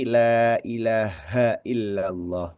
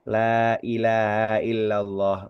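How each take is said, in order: First: The h is strong, from deep in the throat. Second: The h is soft and barely heard. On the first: The speaker calls it right. "tapi; perlu kita tekankan di sini" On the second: The speaker calls it wrong. "Tidak sekedar"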